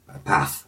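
It is said in a northern English accent. "we say a path"

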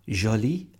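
It is said with a French-style accent.

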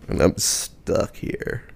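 It is said in a low, growling voice.

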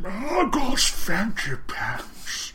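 It is said in an old man's voice.

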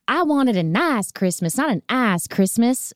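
It is said in the actress's accent.

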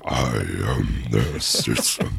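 It is said in a grotesque low-pitched voice. "underneath it going"

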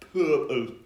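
The final p sound is dropped and rolled off. "I'm not really doing the final P on it. I'm just letting it roll off"

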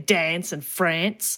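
Said in an Eastern Australian accent. "in the East we tend to say"

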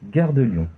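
The pitch falls at the end. "la seconde descendante"

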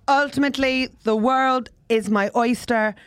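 It is said with a low pitch.

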